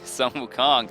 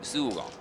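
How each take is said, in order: First: The first word ends with an N sound. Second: The first word ends without an N sound. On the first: The speaker calls it wrong. "I say Sun Wukong because I am from America" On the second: The speaker calls it right. "you don't say the N in Sun Wukong"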